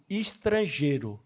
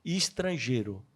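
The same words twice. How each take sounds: First: Put-on slow, low, softened call of a kind old man; gentle old man. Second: Slow, soft and low, tenderly repeated; gentle old man. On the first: Old man kindly calling the lonely newcomer, slow and soft. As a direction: say it slowly and kindly, like a fatherly hand on the shoulder. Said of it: "esse homem chega do meu lado e fala assim". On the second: Retold or imitated. Old man naming the foreigner again, slower and softer. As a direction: repeat it softly and slowly, full of kindness. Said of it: "Olha o nome que ele usa".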